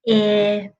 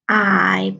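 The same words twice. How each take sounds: First: The vowel is short, as in pig. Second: The vowel is long, as in pie. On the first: "short I in pig" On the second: "long I in pie"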